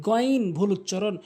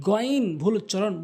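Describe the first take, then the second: Both takes have the same delivery.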